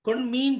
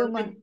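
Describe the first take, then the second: First: The final vowel is held long. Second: The final vowel is kept short. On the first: The speaker calls it wrong. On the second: The speaker calls it right.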